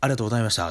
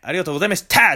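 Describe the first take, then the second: First: It is said in a calm, normal way. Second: It is said loudly and forcefully.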